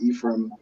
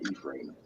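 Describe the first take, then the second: First: It is said with an American pronunciation. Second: It is said with a British pronunciation. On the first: "So in America, you probably pronounce it" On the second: "In the U K, so I'm from Manchester, so I I see it as"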